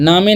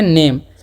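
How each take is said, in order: First: It is said as two syllables, naa-may. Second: It is said as one syllable, naym. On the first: The speaker calls it wrong. "नामे नहीं पढ़ना है" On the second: The speaker calls it right. "इसे हम लोग पढ़ेंगे नेम"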